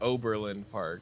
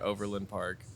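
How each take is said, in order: First: The name has a b sound after the O. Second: The name has a v sound after the O. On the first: This is how others are heard saying it. "but I've heard Oberlin Park" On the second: This is how the speaker says it. "I would say Overland Park"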